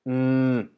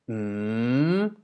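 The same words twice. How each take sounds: First: The pitch stays level in the middle range. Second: The pitch dips and then rises upward. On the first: "the middle tone, which actually is more like mm" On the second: "a rising tone, which goes like mm"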